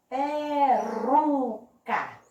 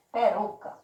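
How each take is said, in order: First: "Peruca" broken slowly into syllables, RU strongest; stressed middle syllable. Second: Said in the usual way. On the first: Shown as a demonstration. Teacher asking for the strongest syllable, very slow "Peruca" with stressed RU. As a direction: draw out "Peruca", pitch raised, leaning on RU. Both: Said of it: "Qual foi a sílaba mais forte?".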